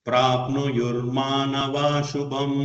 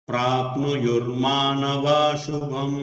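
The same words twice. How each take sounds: Both takes have the same delivery.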